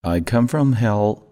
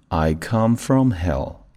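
First: It is said at a faster pace. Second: It is said at a slower pace.

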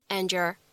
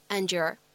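First: The two words blend together with sound assimilation. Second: The two words blend together with sound assimilation.

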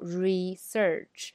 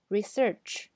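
First: Both syllables get equal stress. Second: The stress is on the second syllable. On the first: The speaker calls it wrong. "我们不能读research，那么它就变成一样的了啊" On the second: The speaker calls it right. "重音在search 上"

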